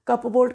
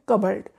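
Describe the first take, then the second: First: A p sound is heard in the middle. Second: No p sound is heard in the middle. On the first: The speaker calls it wrong. "गलत है ये" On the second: The speaker calls it right. "ठीक उच्चारण है कबर्ड"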